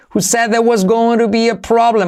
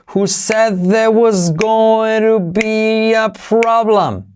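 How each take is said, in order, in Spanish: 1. La frase se dice a velocidad normal. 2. La frase se dice despacio.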